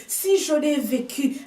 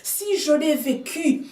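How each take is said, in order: Both takes have the same delivery.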